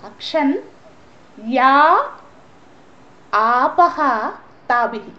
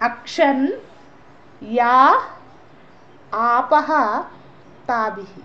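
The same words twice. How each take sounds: Both takes have the same delivery.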